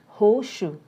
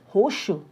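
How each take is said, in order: Both takes have the same delivery.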